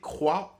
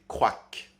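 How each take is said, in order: First: The word ends on the open vowel sound. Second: The word ends with an added k sound. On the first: "plutôt que de prononcer croix" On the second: "de prononcer croac"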